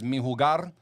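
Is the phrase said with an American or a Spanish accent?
Spanish. It is said with a Spanish accent, rolled R. "the rolling of the R is official"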